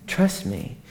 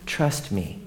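First: Soft high "Trust me". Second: Soft low "Trust me". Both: Acted. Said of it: "repeated with different delivery".

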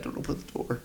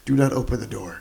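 First: Urgent whisper, retold; hushed warning. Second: Said in the usual way. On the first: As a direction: breathe the warning under your breath. Retelling own anxious reaction to scene.

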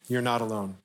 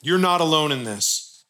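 First: Softer, quieter tender repeat; a hushed, sincere echo of the line; soft reassurance. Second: Said in the usual way. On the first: Real, not acted. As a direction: let it land gently and quietly, like comfort.

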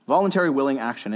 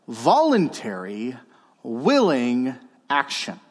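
First: Said in the usual way. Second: Slow, measured emphasis on each word; slow dictation. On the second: Real, not acted. Preacher dictating to note-takers, slowly and deliberately. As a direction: spell out the key phrase word by word.

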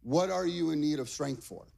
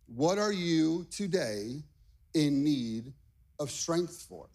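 First: Said in the usual way. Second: Slow question with pauses between phrases; spaced out, letting each phrase land; slow, deliberate question. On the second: Shown as a demonstration. Preacher putting the question to the congregation, slow and deliberate. Repeats question slowly for emphasis.

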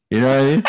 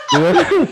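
First: Laughing question. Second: Much higher and louder, squealing through laughter. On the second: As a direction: squeak it out mid-laugh, cracking up. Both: Real, not acted. Laughing at his own confession.

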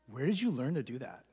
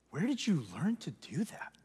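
First: Said in the usual way. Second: Stunned, hushed repeat; awed whisper. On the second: Retold or imitated.

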